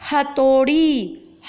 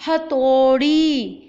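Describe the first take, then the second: First: हथौड़ी slow and loud, औ drawn out; slow model word. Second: हथौड़ी slow and loud, long औ; slow model word. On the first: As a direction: stretch the औ in हथौड़ी slowly. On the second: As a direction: repeat हथौड़ी slowly, lean on थौ. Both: Shown as a demonstration. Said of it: "औ की मात्रा आ रही है ना थ के ऊपर".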